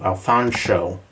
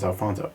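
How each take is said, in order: First: The name is said with a sh sound. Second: The name is said with a plain s sound. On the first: The speaker calls it right. "Pronouncing the sh sound is very important" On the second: The speaker calls it wrong. "He gets offended if you pronounce it as Alfonso"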